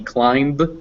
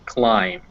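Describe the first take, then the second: First: The final b is pronounced. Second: The final b is silent. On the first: The speaker calls it wrong. "otherwise it'd be climb, and that would be awkward" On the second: The speaker calls it right. "so you just don't even pronounce it"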